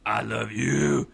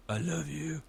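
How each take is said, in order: First: Loud, slow, with "you" hit hard; much louder, drawn-out, angry emphasis on "you"; angry stress on you. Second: Higher-pitched, sappy lilt. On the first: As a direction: drag it out angrily, leaning on "you". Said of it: "I'm angry and I emphasize the word you". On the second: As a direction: gush it sweetly, sappily. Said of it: "I get all sappy". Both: Shown as a demonstration.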